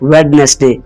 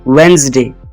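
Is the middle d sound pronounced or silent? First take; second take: pronounced; silent. First: The middle d sound is pronounced. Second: The middle d sound is silent. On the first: The speaker calls it wrong. "गलत pronounce करते हैं" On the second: The speaker calls it right. "इसमें डी silent है"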